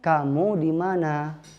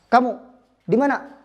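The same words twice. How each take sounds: First: It is said naturally, with relaxed vowel length. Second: It is said clipped and forced, not natural.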